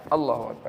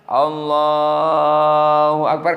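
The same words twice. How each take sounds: First: The phrase is said very quickly. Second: The phrase is drawn out slowly. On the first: There is no time to form the intention while saying it. The speaker calls it wrong. "itu secepat itu" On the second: There is time to form the intention while saying it. The speaker calls it right. "takbiratul ihram agak panjang"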